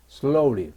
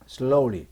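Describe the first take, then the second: No difference in how they are said.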